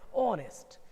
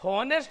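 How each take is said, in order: First: The word begins with a vowel sound. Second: The word begins with an h sound. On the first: The speaker calls it right. "उच्चारण इसका ओनेस्ट" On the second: The speaker calls it wrong. "उच्चारण होता है हॉनेस्ट ना हो के"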